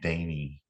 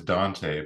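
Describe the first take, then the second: First: The name is said without any T sound. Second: The name is said with a clear T sound. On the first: This is how locals actually say it. "but it's pronounced Danny" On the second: This is how the name is written. "Its goddamn name is Dante"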